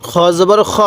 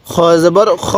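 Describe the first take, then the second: No difference in how they are said.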